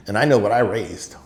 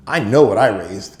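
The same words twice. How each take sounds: First: Said in the usual way. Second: Louder, insistent father; firm emphatic repeat. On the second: Retold or imitated. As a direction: drive the line home.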